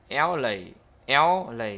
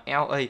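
First: "L A" joined as "el-lay"; linked sounds. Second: Said in the usual way. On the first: Shown as a demonstration. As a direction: carry the l of L onto A. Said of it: "đọc nhanh nó sẽ là". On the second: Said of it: "nhưng mà đọc nhanh".

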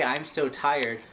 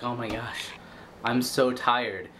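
First: Said in the usual way. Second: Tired complaint. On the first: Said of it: "when you say". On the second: Retold or imitated. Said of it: "you're like".

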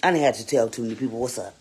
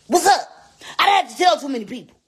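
First: Said in the usual way. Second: Higher, louder and fast; loud emphatic repeat. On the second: Real, not acted. Streamer insisting to viewers, louder and faster. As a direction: punch it out, insisting. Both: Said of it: "repeats louder".

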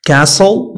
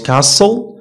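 First: "Castle" as cassel, no T; silent T. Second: "castle" as cas-tel, T audible; T sounded. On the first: Teacher models common words, silent T in "Castle". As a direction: say "Castle" with the T dropped. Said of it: "T is not pronounced". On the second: Teacher shows what not to say, T sounded in "castle". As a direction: say "castle" pronouncing the T. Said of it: "not castle". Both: Shown as a demonstration.

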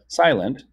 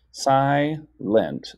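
First: Said in the usual way. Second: SILENT split into si, then lent; syllable by syllable. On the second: Shown as a demonstration. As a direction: say SILENT in two separated beats. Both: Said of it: "Silent has two parts".

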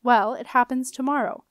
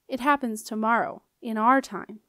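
First: Said in the usual way. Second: "our time" set apart and emphasised; clarifying repeat with weight on "our"; stress on "our". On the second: A narrator's reading. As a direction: repeat it pointedly, leaning on "our".

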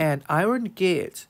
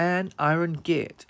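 First: Said in the usual way. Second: Slow clear model. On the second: Shown as a demonstration. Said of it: "ตอบเป็น an iron gate".

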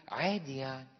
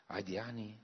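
First: Bored shrug. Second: Dismayed quiet echo. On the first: Retold or imitated. Voicing indifferent believer. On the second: Real, not acted. Priest echoes, dismayed.

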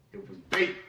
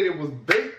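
First: Much softer, lower repeat of it; quiet echo. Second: Said in the usual way. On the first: Real, not acted. Repeating his verdict on the diss track to viewers, quiet aside. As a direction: drop it to a low aside, almost to himself.

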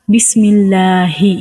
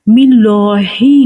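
First: "বিসমিল্লাহি" drawn out as "bismillaaa-hi"; light, held open middle in "বিসমিল্লাহি"; correct light lam. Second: "মিল্লাহি" drawn out as "millooo-hi"; louder, heavy rounded middle in "মিল্লাহি"; wrong heavy lam. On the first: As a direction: say "বিসমিল্লাহি" slowly with a thin L and open a. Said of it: "পাতলা করে উচ্চারণ হবে". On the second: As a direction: say "মিল্লাহি" slowly with a thick L and rounded vowel. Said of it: "নয়". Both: Shown as a demonstration.

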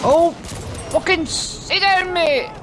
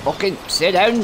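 First: Much higher, slow mocking drawl; sing-song taunt. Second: Said in the usual way. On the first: Real, not acted. Gamer mocking the enemy he just killed, high and slow. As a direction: drag it out to rub it in.

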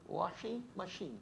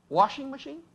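First: "Washing machine." said slow and soft in a Brazilian Portuguese accent, "ashi machin"; quiet Brazilian Portuguese "Washing machine." with a falling tone. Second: "Washing machine?" asked high with a questioning rise; "Washing machine?" with an unsure rising tone; checking own pronunciation. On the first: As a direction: drop the w in "Washing machine." and settle it slowly in Brazilian Portuguese style. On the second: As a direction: try out "Washing machine?" as a query to the audience. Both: Shown as a demonstration. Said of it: "Tá certo meu accent?".

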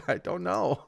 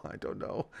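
First: Said in the usual way. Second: Soft whispered repeat, no voice; whispered I don't know under the breath; whispered aside. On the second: Real, not acted. Repeats phrase, second whispered.

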